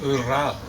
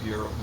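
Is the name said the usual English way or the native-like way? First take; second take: native-like; usual English. First: The name is given a native-like pronunciation. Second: The name is given the usual English pronunciation. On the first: The speaker calls it right. "It should be something like Ural" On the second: The speaker calls it wrong. "we tend to say Ur- Ural Mountains"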